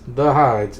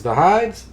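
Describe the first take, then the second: First: "hides" falling, as a statement; firm answer. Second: "hides" rising high as a question; questioning echo. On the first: Reads the answer to the query. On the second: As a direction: query "hides" with a sharp upward lift. Reads confused back-and-forth over a word. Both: Acted.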